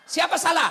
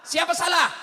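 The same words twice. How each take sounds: The two takes are said the same way.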